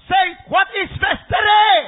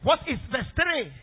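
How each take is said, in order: First: Louder, higher, slow shout demanding an answer; loud call to respond. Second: Said in the usual way. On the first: Real, not acted. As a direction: shout it out to the congregation, drawing it out.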